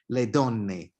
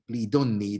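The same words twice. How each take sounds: First: It is said in the standard Italian form. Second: It is said in the southern Judeo-Italian dialect form.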